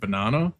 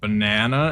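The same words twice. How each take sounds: First: The word is said with a non-American accent. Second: The word is said with an American accent. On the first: "instead of banana" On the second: "kind of Americanized with banana"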